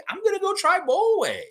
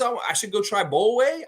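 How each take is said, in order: First: Much higher, squeaky retake of the line; squeaky mock Scotty. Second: Higher, lightly voiced player quote; tossing off his ad line in a lifted voice; Scotty's hyped line. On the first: Host echoing Scotty's ad line in a high mock voice. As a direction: push it way up into a playful squeak. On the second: Host quoting the Raptor from his Subway ad, lightly put-on. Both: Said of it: "Then Scotty says".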